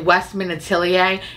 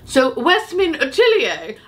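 First: The name is said in a plain, everyday way. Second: The name is said in a fancy, put-on accent. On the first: The speaker calls it wrong. "if I just say Westman Atelier, it sounds horrible" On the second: The speaker calls it right. "I don't know why I have to say it like that"

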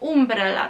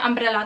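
First: The first vowel is a rounded 'oo' sound. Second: The first vowel is an open 'uh' sound. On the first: "jego zdaniem umbrella, on wymawia U, kiedy jest A" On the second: "moim zdaniem umbrella to jest parasolka"

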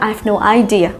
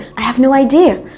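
First: The stress in idea is on the first syllable. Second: The stress in idea is on the second syllable. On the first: The speaker calls it wrong. "không nói là" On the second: The speaker calls it right. "Hãy nhớ là idea có trong âm và âm tiết thứ hai. Cho nên chúng ta hãy nói là"

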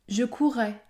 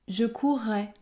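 No difference in how they are said.

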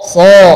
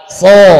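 First: The s sound is thick and heavy. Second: The s sound is thick and heavy.

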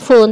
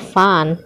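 First: The vowel is a rounded 'oo' sound. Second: The vowel is an open 'uh' sound. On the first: The speaker calls it wrong. "jangan dibaca fun" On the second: The speaker calls it right. "tetapi dibaca fun"

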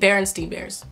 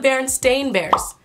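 First: The name ends with a 'stein' sound. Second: The name ends with a 'stain' sound. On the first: This is how most people remember the name. The speaker calls it wrong. "B-E-R-E-N-S-T-E-I-N, right?" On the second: This is the name as actually printed. The speaker calls it right. "Like stain, like stain, the last part, S-T-A-I-N"

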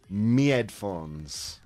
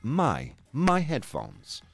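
First: The first word sounds like "me". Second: The first word rhymes with "high". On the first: The speaker comes from Yorkshire. "if you're lucky enough to come from Yorkshire, like myself, you are allowed to say me headphones" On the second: This is the standard way to say it. "It is pronounced my headphones"

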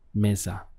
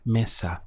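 First: The middle consonant is a z sound. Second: The middle consonant is a strong s sound. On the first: "it's more of a Z sound" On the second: "you might hear a stronger S sound"

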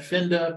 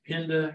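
First: The name begins with an F sound. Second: The name begins with a P sound. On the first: This is how the name looks like it should sound. "you want to pronounce that Finda" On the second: This is how the locals say the name. "but they all pronounce it Pinda"

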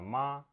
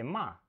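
First: The syllable is said with the first tone. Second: The syllable is said with the fourth tone. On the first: It means mother. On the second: It means to scold someone.

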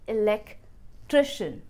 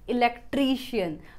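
First: The 'tri' syllable has a short 'i' vowel. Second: The 'tri' syllable has a long 'ee' vowel. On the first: The speaker calls it right. "सही pronunciation होनी चाहिए इलेक्ट्रिशियन, ट्रिशियन" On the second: The speaker calls it wrong. "हम इस ट्री को ट्री बोल देते हैं"

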